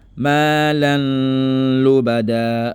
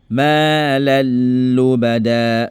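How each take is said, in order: First: The n is kept with a nasal hum. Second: The n merges fully into l without nasalization. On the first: The speaker calls it wrong. "Tu ne dis pas Malan lubada. Ça, c'est pas une bonne lecture" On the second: The speaker calls it right. "Sans le naziment, tu ne fais pas de naziment"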